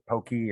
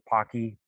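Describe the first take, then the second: First: The first vowel is long, as in poke. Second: The first vowel is short, as in pock. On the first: The speaker calls it wrong. "I don't know how to pronounce it" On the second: The speaker calls it right. "I think Pocky sounds better. Like the Pocky sticks"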